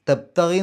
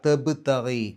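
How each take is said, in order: First: The b is said softly without an echoing bounce. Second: The b is said firmly with an echoing bounce. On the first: The speaker calls it wrong. "എന്ന് പറഞ്ഞാൽ പോരാ" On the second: The speaker calls it right. "വെളിവാക്കി പറയണം, ഗൗരവത്തിൽ പറയണം"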